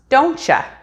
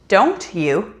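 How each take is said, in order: First: The word 'you' is reduced to a 'cha' sound. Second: The word 'you' is said fully and separately.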